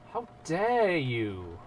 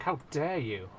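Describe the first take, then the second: First: Slow, higher, stretched-out DARE; hammed-up offence, dragging out DARE; drawn-out mock outrage. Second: Indignant, quick first take; mock outrage. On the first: Mock offence, repeated for effect. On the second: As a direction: play offended at a slight. Mock offence at chat remark.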